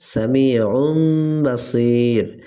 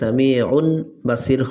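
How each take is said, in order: First: An m sound comes before the b. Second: An n sound comes before the b. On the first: The speaker calls it right. "এখানে হবে সামিউন বাসির" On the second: The speaker calls it wrong. "এখানে সামিউন বাসির হবে না"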